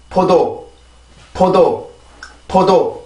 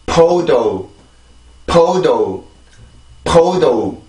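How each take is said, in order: First: 포도 with even syllables, no stress; Korean syllable-timed podo. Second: 포도 with aspirated p and stress on the first syllable; English stressed podo. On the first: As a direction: say 포도 flat, each syllable equal. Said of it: "한국어입니다". (한국어식으로 음절마다 고르게 포도) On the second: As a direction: puff air on 포 and let 도 fall away. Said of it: "영어로 발음을 해보면". (영어식으로 첫 음절에 강세 주고 공기 많이 포도) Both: Shown as a demonstration.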